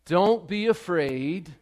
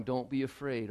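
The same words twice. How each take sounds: First: Preaching Jesus's words. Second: Softer, hushed comfort; gentle reassurance. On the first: Preacher declaring Jesus's words to the congregation, slow and lifted. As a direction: proclaim it slowly to the whole room. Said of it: "And Jesus says this to you". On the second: God speaking softly to someone here today who is afraid. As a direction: say it softly to one hurting person. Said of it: "Maybe God wants to say to somebody". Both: Acted.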